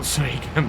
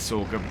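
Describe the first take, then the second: First: The first syllable is said as 'soy'. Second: The first syllable is said as 'sor'. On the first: The speaker calls it wrong. "and not soygum" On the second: The speaker calls it right. "I of course know it's sorghum"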